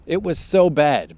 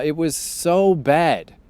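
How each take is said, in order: First: Said in the usual way. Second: Slow, stretched "It was so bad." with "so" leaned on hard and falling; drawn-out emphasis. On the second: Real, not acted. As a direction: drag out "so" in "It was so bad." to stress how bad it was.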